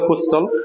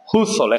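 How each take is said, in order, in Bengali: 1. মাঝে একটি t ধ্বনি শোনা যায়। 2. মাঝে কোনো t ধ্বনি শোনা যায় না। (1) "এটা অনেকেই বলবে হুস্থল" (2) "এটা হবে হুসল, এখানে টির উচ্চারণ হবে না"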